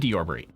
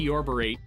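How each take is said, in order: First: The word is said quickly and casually, without emphasis. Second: The word is said with exaggerated, drawn-out emphasis. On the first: It passes as a normal, real word. "I just flew by it and I'm like" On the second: It draws attention to the odd word. "make such a big deal where I'm like"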